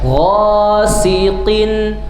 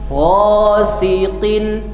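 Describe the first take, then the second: No difference in how they are said.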